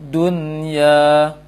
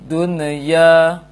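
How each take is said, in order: The two takes are said the same way.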